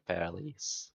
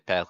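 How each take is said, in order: First: The final s sound is pronounced. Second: The final s sound is silent. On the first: The speaker calls it wrong. "you don't say Paris" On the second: The speaker calls it right. "You usually don't pronounce the last consonant"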